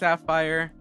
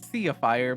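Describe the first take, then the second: First: The name is said like the gemstone word. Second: The name is said unlike the gemstone word. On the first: The speaker calls it right. "but it's pronounced Sapphire, much like the rock" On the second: The speaker calls it wrong. "in my head, every time I say it, I pronounce it Sapphire"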